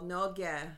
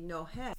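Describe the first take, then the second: First: The middle consonant is a hard G sound. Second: The middle consonant is an H sound. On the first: This is how the speaker's own region says it. "we call noge" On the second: This is how another region of the country says it. "And they say nohe"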